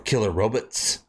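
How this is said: It is said in an exaggerated, put-on voice.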